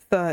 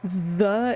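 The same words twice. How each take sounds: First: The th sound is voiceless, just air. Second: The th sound is voiced, with buzzing. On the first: "is unvoiced" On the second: "is um a voiced"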